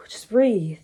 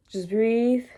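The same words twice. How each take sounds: First: Sigh, just breathe. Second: Said in the usual way. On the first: Retold or imitated. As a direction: exhale and calm yourself down. Calming herself after crying.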